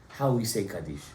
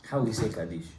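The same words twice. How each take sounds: Both takes have the same delivery.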